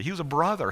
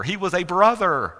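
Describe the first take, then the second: First: Said in the usual way. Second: "He was a brother" louder and higher; emphatic repeat. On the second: Shown as a demonstration. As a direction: hammer "a brother" loudly, pitch raised.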